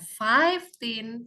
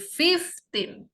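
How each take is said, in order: First: The first vowel sounds like 'eye'. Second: The first vowel sounds like 'it'. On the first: The speaker calls it wrong. "bukan fifteen" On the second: The speaker calls it right. "tapi fifteen ... dibacanya i juga"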